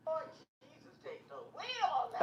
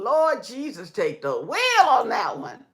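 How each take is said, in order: First: Much softer, distant echo of the line; like the stream replaying it from far off; faint far echo. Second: Said in the usual way. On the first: Real, not acted. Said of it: "let me turn this off". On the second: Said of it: "repeated faint echo take".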